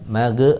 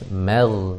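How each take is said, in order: First: The g is released with a bouncing vowel. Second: The g is held smoothly without a release. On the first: The speaker calls it wrong. "jangan mage, ah itu mah mage, apa mantul" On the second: The speaker calls it right. "harus mag"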